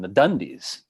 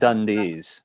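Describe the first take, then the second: First: The stress falls on the first syllable. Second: The stress falls on the second syllable. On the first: The speaker calls it right. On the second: The speaker calls it wrong.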